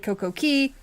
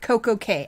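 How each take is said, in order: First: The last word sounds like 'key'. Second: The last word sounds like 'kay'. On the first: This is how others say the name. "I've heard it say" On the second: This is how the speaker says the name. "I say it"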